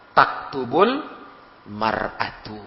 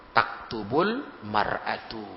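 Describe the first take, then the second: First: Said in the usual way. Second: "Taktubul mar'atu" said slowly, each syllable clear; slow careful repeat. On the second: Shown as a demonstration. ("Taktubul mar'atu" diulang pelan dan jelas) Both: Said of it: "Apa kita bilang?".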